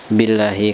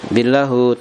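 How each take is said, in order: First: The word ends with an i vowel. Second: The word ends with a u vowel. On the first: The speaker calls it right. "tapi dibaca apa? Billahi, karena bi adalah huruf jer" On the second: The speaker calls it wrong. "tidak dibaca apa? Billahu"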